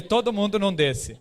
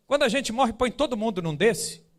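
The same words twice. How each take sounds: First: Said in the usual way. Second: Lightly imitated child's higher question; a hint of a child asking, pitched up at the start; curious child. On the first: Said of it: "Eu falei". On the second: Son asking about the coffin, lightly imitated child. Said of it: "olhou pro caixão e ele falou assim".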